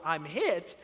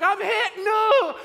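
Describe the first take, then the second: First: Barely raised mock yell; understated imitation of a yell; retold yell. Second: High, very loud mock war-movie cry; hammed-up yell. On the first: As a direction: report the kid's cry with little force. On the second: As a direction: yell it like a soldier dying in a war film. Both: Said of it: "'cause he yells".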